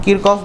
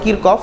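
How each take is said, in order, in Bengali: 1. এটা Kirkof-এর মতো শোনাচ্ছে, k ধ্বনি সহ। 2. এটা Kirkof-এর মতো শোনাচ্ছে, k ধ্বনি সহ।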